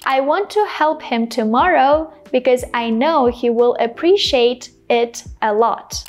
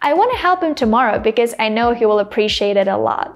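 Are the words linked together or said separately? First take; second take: separately; linked. First: The words are said separately at a slower pace. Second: The words are linked together at a faster pace. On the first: This is how non-native speakers usually say it. "first as people usually pronounce it. Non-native speakers usually pronounce it" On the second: This is how a native speaker would say it. "me pronouncing the sentence as a native speaker would pronounce it using connected speech"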